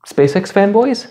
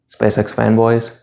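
First: Eager guess. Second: Said in the usual way. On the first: Acted. Playing the audience's guess.

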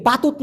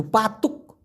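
First: "পাতুত" with a t at the end, marked as wrong; "পাতুত" with a final t; wrong form. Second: "পাতুক" ending in a clear k, said quietly; right form. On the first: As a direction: say "পাতুত" ending on t to show the mistake. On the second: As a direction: say "পাতুক" and close on the k. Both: Shown as a demonstration. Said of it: "পাতুত না কিন্তু".

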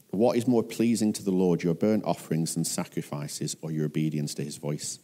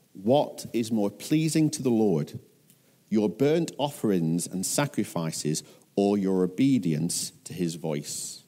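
First: Lower, running on without pauses; subdued re-reading. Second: Deliberate, with a pause before each phrase; measured emphatic reading. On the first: Preacher repeating the key verse after "Ouch", lower and subdued. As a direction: let it drop and flow in one breath. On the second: Preacher reading the key verse of Samuel's reply, measured and emphatic. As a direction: weigh "pleasing", "burnt" and "obedience". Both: A narrator's reading.

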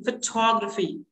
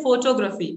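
First: "photography" stressed on the second syllable, fuh-TOG-ruh-fee; correct pronunciation. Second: "photography" stressed on the first syllable, FO-to-gra-phy; common mispronunciation. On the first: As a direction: hit TOG in "photography", weak first vowel. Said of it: "correct pronunciation would be photography". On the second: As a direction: say "photography" as PHO-to-graphy, long first o. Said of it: "but correct pronunciation would be photography". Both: Shown as a demonstration.

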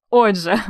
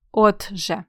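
First: Said in the usual way. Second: "Отже" split as от-же with a crisp т; clear т. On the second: Shown as a demonstration. Teacher giving the correct spelling, "Отже" with distinct т. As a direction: sound out the т in "Отже". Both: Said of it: "Правильно пишемо".

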